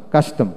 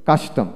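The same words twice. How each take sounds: The two takes are said the same way.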